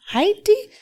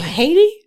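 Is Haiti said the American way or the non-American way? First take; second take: non-American; American. First: It is said the film's non-American way. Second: It is said the usual American way. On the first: The speaker calls it right. "It's Haiti" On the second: The speaker calls it wrong. "not Haiti"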